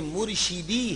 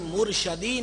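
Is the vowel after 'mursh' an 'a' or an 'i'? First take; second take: i; a. First: The middle syllable has an 'i' vowel. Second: The middle syllable has an 'a' vowel. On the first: One who guides us. The speaker calls it right. "बल्कि मुर्शिदी है, शीन जेर शी" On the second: One who is guided by us. The speaker calls it wrong. "लफ्ज मुर्शदी नहीं है"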